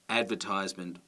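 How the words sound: It has the American stress placement. "they may say"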